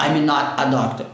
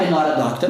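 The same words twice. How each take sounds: First: "I'm not a doctor" with "not" and "a" kept apart; word-by-word "not a doctor", no quick linking; unlinked wrong way. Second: "not a" run together as "nora"; quick "I'm not a doctor" with flapped T; sped-up linking. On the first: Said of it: "Eu não posso falar". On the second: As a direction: link "not a doctor" with an R-like tap. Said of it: "Eu tenho que acelerar essa fala". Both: Shown as a demonstration.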